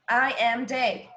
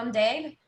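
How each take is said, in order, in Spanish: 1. 'I am' se dice como dos palabras completas. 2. 'I am' se contrae en una sola sílaba. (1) "no tan como que I am Dave" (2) "suena como que más fluido"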